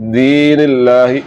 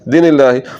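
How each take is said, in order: First: The first vowel is long. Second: The first vowel is short. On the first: The speaker calls it right. "दाल के नीचे जो ज़ेर है इसको आपने लंबा करना है" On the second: The speaker calls it wrong. "इसको लंबा ना किया"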